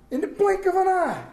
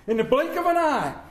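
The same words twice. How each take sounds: First: Blink punched out, pitched up high; stress on blink. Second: Said in the usual way. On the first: Shown as a demonstration. Preacher driving home the Easter line to his church, stress on "blink". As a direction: lift and hit "blink" hard, the rest falling away.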